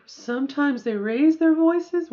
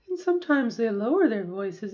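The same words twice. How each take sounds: First: Raised voice demo. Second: Lowered voice demo. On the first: She demonstrates women raising their voices, higher and louder. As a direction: voice lifted higher and louder on the phrase. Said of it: "which I didn't just do". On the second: She demonstrates women lowering their voices, lower pitch. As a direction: drop into a lower voice on lower. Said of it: "That's a good lower". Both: Shown as a demonstration.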